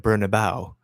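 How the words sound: It is pronounced with English-style sounds. The speaker calls it wrong. "English people um, pronounce it the Bernabeu"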